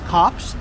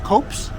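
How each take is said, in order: First: The vowel is short, as in 'cop'. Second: The vowel is long, as in 'hope'. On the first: The speaker calls it wrong. "I'm reading this as Cops" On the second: The speaker calls it right. "this is pronounced Copes"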